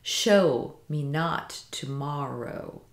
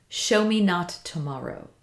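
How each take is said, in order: First: Very slow "Show me not tomorrow", SHOW and NOT leaned on; "Show me / not to / morrow" in deliberate feet, first beat strong, MOR stressed; trochaic stress. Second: Said in the usual way. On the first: Shown as a demonstration. Teacher demonstrating trochaic trimeter, slow measured stress. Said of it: "This is trochaic trimeter". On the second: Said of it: "It has a quickness to it".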